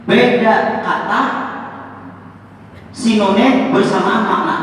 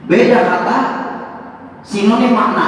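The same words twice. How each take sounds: First: Beda kata said slowly with a rise on beda; slow, stressed definition. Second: Laughing definition. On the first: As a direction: spell it out like a language teacher. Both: Shown as a demonstration. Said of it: "Ini kalau ada guru bahasa Indonesia".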